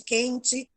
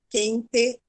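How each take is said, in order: First: The final vowel sounds like 'ee'. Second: The final vowel sounds like 'eh'. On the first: This is the local São Paulo habit. "tudo que, que é o E no final, a gente troca pelo I" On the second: This is how people in Santa Catarina say it. "eles falam leite, quente"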